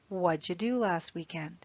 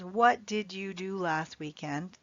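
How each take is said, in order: First: 'What did' is linked into one short syllable. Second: Each word, including 'did', is said separately. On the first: The speaker calls it right. "We link the words together. So it sounds like" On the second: The speaker calls it wrong. "We never say, as native English speakers"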